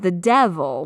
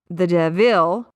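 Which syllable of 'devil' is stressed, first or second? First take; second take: first; second. First: The stress is on the first syllable of devil. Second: The stress is on the second syllable of devil. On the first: The speaker calls it right. "with the emphasis on the first syllable" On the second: The speaker calls it wrong. "forcing the emphasis, the stress onto that second syllable"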